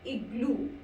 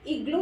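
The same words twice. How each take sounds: First: इग्लू ending in a clear OO, "ig-loo". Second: इग्लू ending in an O sound, "ig-lo"; wrong ending in इग्लू. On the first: Teacher corrects the mistake for learners, इग्लू with final OO. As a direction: finish इग्लू on an OO vowel. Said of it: "ऊ का sound". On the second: Teacher shows the mistake to avoid, इग्लू said as "ig-lo". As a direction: say इग्लू with O in place of final OO. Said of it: "इग्लू नहीं बोलेंगे इसको". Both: Shown as a demonstration.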